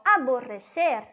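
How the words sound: It is pronounced with Spanish sounds. It means to hate or detest something. "Quando eu digo em espanhol aborrecer"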